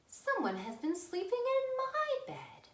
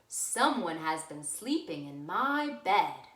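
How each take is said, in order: First: It is said in Mama Bear's voice. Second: It is said in Papa Bear's voice.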